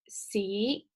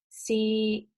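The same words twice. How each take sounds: First: The syllable is said with the second tone. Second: The syllable is said with the third tone.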